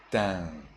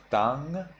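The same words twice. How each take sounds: First: Tang with a nasalised vowel; tang without a firmly closed final consonant; Burmese reading. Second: Tang with an open ah and final nasal; tang with a clearly closed final consonant; standard reading. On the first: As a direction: let tang fade into the nose, falling. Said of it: "you read". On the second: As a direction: say tang as written, rising. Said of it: "Instead of tang". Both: Shown as a demonstration.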